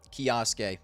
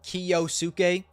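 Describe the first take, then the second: First: The name is said shortened, syllables run together. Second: The name is said in full, every syllable. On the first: The speaker calls it right. "it kind of rolls off the tongue better" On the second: The speaker calls it wrong. "I used to say Kiyosuke. But then I heard that Kiyosuke is not how you pronounce it"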